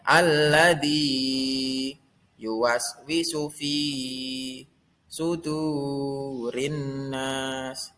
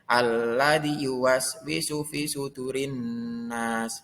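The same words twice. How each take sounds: First: The marked vowels are held long. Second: The marked vowels are kept short. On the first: The speaker calls it right. "cara membacanya yaitu panjangnya dua harokat" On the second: The speaker calls it wrong. "Tidak boleh"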